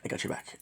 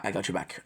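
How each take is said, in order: First: Soft whispered reassurance; whispering. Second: Said in the usual way. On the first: Real, not acted. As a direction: whisper it close and gentle. Reassuring a friend, then whispered.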